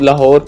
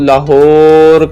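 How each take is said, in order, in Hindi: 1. बीच की h ध्वनि पर ज़ोर नहीं दिया जाता। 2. बीच की h ध्वनि पर बहुत ज़ोर दिया जाता है।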